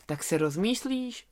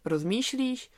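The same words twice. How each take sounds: First: Said in the usual way. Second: Rozmýšlíš repeated with a higher questioning rise; incredulous echo. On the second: Acted. Lamb echoes the hesitating wolf in disbelief.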